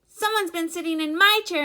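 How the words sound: It is said in a tiny, squeaky voice. "squeaked in his wee little voice"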